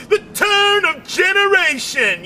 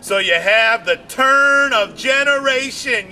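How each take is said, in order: First: The turn of generation shouted much higher with "The" punched; stress on THE. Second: Said in the usual way. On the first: Shown as a demonstration. Comic repeating his point, "The" shouted high.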